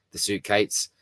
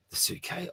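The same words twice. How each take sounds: First: Said in the usual way. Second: "The suitcase?" thrown up high in disbelief; puzzled echo. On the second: Real, not acted. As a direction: repeat it like you can't believe what you just read. Baffled echo of the comment.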